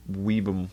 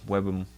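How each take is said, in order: First: Weebum said as WEE-bum, long ee; trying out Weebum with a long ee; guessing the name. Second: Webum said as WEB-um, short e; another guess. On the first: Streamer unsure how to say the file extension, tentative. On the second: Streamer testing a second pronunciation, tentative. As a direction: try Webum with a short e instead. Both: Shown as a demonstration. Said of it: "I don't even know how to pronounce that".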